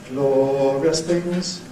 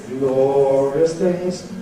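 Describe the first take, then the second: The two takes are said the same way.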